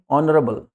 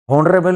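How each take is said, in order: First: ऑनरेबल opening on an O sound; silent H. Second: हॉनरेबल with a spoken H; H sounded. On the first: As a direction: drop the H from ऑनरेबल. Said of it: "ओ का sound आ गया". (ऑनरेबल, ओ की आवाज़ से शुरू) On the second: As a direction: wrongly voice the H opening हॉनरेबल. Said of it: "हॉनरेबल नहीं". (हॉनरेबल, एच के साथ) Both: Shown as a demonstration.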